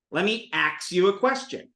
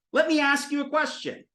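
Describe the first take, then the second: First: "ask" pronounced "aks". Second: Said in the usual way. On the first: Shown as a demonstration. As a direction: swap the S and K in "ask". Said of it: "S K can become a ksa sound". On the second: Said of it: "S K can become a ksa".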